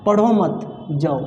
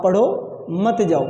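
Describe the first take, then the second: First: पढ़ो मत run together, a pause, then जाओ; pause after मत. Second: पढ़ो, then a clear pause, मत जाओ run together; pause after पढ़ो. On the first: Teacher shows students the negative sentence, pausing after मत. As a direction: join पढ़ो to मत and break before जाओ. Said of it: "मत के बाद". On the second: Teacher shows students the positive sentence, pausing after पढ़ो. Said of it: "मैं रुका". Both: Shown as a demonstration.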